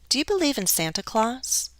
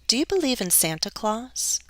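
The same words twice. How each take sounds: Both takes have the same delivery.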